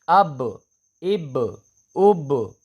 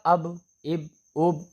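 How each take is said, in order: First: The final b bounces with an echoing release. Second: The final b is stopped flat without echo. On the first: The speaker calls it right. "कलकला कै- कै- कब होगा?" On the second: The speaker calls it wrong. "तो इसमें कलकला नहीं हो रहा है"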